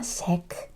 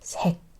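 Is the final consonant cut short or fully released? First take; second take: released; cut short. First: The final consonant is fully released. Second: The final consonant is cut short. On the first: The speaker calls it wrong. "It's not 색" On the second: The speaker calls it right. "it's 색"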